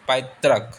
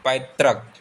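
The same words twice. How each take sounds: The two takes are said the same way.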